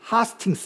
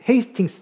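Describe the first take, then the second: First: The first syllable sounds like 'ha'. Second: The first syllable sounds like 'hey'.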